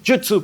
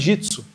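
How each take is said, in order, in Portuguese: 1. A vogal depois do j soa como u. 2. A vogal depois do j soa como i. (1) "no japonês original, quando eles pronunciam jutsu" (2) "parece jitsu"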